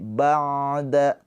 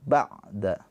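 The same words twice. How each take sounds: First: The 'ain sound flows on smoothly. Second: The 'ain sound is held and cut off. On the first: The speaker calls it right. "mengalir suaranya" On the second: The speaker calls it wrong. "Jangan tertahan, jangan ba'da"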